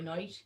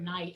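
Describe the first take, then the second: First: The word is said in an Irish accent. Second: The word is said in a standard accent. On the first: "I'll say" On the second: "Instead of the word"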